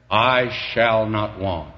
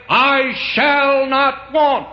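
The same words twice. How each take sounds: First: Said in the usual way. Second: Very high, loud, very slow sung-out declaration; voice of experience. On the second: Shown as a demonstration. Preacher crowning his testimony to the church, very high and slow. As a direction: ring out I shall not want as the climax. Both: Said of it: "That's the voice of experience".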